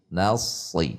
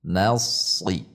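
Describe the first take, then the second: First: The s is made with a tensed tongue root. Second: The s is made with a tensed tongue root.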